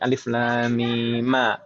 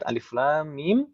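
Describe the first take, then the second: First: The final mim ends with an added a vowel. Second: The final mim ends on a bare consonant. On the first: "Jadi alif lam mim ma" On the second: "ketika kita menyambung dua ayat alif lam mim"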